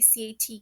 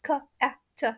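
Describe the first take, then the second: First: Each letter is said by its alphabet name. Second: Each letter is said by its phonic sound. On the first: The speaker calls it wrong. "we don't say C A T" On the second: The speaker calls it right. "It's k a t ... phonics"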